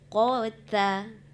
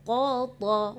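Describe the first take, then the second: First: The t sound is thin and light. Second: The t sound is thick and heavy. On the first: The speaker calls it right. "Sebenarnya qata, kembalikan ke huruf asalnya" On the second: The speaker calls it wrong. "Jangan gara-gara huruf qa tebal, ta pun jadi tebal. Ah, tadi qata"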